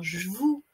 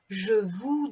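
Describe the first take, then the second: First: The e of je is dropped. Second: The e of je is fully pronounced.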